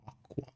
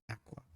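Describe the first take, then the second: First: Aqua said as AH-kwa, broad ah vowel; not the Australian way. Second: Aqua said as AK-wa, short a as in cat, softer; Australian pronunciation. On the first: Streamer showing how others say her name, AH-kwa. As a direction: say aqua with an open ah like father. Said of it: "We don't say aqua". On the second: Aussie streamer showing her own way to say aqua, AK-wa. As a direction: say aqua with a flat cat vowel. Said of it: "We say aqua". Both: Shown as a demonstration.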